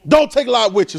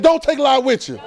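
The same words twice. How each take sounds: First: Preacher leading the congregation; call to repeat. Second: Higher, pushing call-and-response; urged repetition. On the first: Pastor giving congregation a line to repeat, firm. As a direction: set the phrase up for them to echo. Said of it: "Say it". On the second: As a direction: lift it and make them say it. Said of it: "Come on, say it again". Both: Shown as a demonstration.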